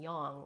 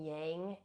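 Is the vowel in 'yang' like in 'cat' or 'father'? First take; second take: father; cat. First: The vowel sounds like the one in 'father'. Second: The vowel sounds like the one in 'cat'. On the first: The speaker calls it right. "the pronunciation of, of uh, A in Sanskrit is ah. So yin and yang would actually be the proper way" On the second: The speaker calls it wrong. "we often will say yin and yin yang in um, like American English"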